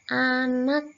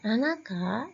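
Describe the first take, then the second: First: The word ends on the final consonant, no added vowel. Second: An extra vowel sound is added after the final consonant. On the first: The speaker calls it right. "dibaca anak" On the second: The speaker calls it wrong. "anaka itu cara membacanya"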